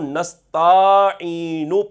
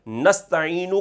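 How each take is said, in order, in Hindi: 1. छोटे स्वर को खींचकर लंबा किया जाता है। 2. स्वर अपनी सामान्य छोटी लंबाई बनाए रखते हैं।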